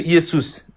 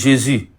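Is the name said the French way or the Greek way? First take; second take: Greek; French. First: The name is said with a Greek pronunciation. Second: The name is said with a French pronunciation. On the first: "vous avez entendu Iesus" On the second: "la prononciation de ce mot en grec et en français"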